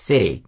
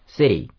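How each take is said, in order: First: The middle consonant sounds close to a D. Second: The middle consonant sounds close to a D.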